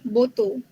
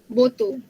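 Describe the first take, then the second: Both takes have the same delivery.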